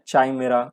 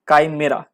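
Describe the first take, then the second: First: The word begins with a ch sound. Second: The word begins with a k sound. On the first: "कैसे pronounce करना है" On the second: "कैसे pronounce करना है"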